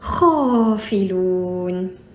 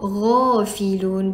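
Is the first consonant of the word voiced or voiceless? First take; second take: voiceless; voiced. First: It begins with a voiceless throaty kh sound. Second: It begins with a voiced throaty gh sound. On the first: The speaker calls it wrong. "bukan khafilun" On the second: The speaker calls it right. "yang itulah cara kita nak sebut ghafilun"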